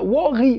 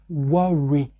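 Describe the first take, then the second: First: It is said with a French accent. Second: It is said with a natural English accent. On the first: The speaker calls it wrong. "No, this is not English, my friend" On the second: The speaker calls it right. "But say worry"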